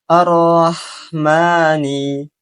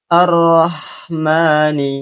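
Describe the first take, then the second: No difference in how they are said.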